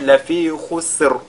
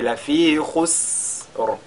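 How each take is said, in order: First: The s sound is cut short into the r. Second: The s sound is drawn out with breath. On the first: The speaker calls it wrong. "ce ne sera pas correct" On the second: The speaker calls it right. "c'est d'allonger la prononciation"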